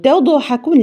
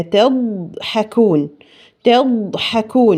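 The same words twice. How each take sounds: First: تضحكون with a false echo on the ض; wrong qalqala. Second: تضحكون slow, the ض held still with no echo; correct reading. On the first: Teacher showing what not to recite. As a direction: bounce the ض in تضحكون, too high. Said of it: "ما ينفعش أقول". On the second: Teacher modelling the correct recitation. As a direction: say تضحكون smoothly and slowly. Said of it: "لا، هي". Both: Shown as a demonstration.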